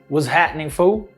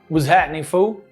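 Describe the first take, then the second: First: The final L in fool is dropped. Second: The same.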